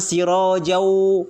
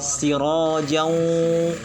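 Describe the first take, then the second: First: The words join without nasal sound through the nose. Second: The words join with nasal sound through the nose. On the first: The speaker calls it wrong. "Jangan siro jauh, enggak" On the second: The speaker calls it right. "betul-betul masuk dari keluar dari hidung dan dari mulut"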